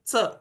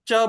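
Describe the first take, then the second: First: The tongue touches the teeth, giving a 'ts' sound. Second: The consonant is made purely at the palate. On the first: This is the regional Marathi form of the sound. The speaker calls it wrong. "वे च ऐसे। तो जिह्वा दाँतों को स्पर्श करती है" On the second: This is the standard, purest form of the sound. The speaker calls it right. "हम जो च बोलते हैं"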